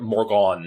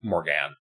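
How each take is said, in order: First: "Morgan" ending like "gone"; variant name. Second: "Morgan" ending with a short a as in "can"; flat "a" in the second syllable of "Morgan"; original name. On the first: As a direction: say "Morgan" as more-GAHN. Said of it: "that's what Morgan is a reference to". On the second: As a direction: say "Morgan" as more-GAN. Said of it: "is a reference to". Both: Shown as a demonstration.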